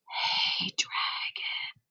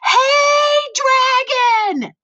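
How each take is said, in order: First: It is whispered very softly. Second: It is shouted very loudly.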